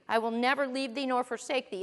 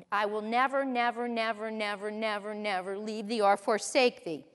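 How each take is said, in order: First: Said in the usual way. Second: Stack the word never, letting it fade; emphatic repeated never. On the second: Shown as a demonstration. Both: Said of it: "it's emphatic".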